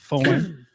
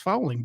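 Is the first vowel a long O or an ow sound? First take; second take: long O; ow. First: The first vowel is a long O. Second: The first vowel sounds like ow. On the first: The speaker calls it right. "That's why we put the long O on the O" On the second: The speaker calls it wrong. "F O W L is fouling"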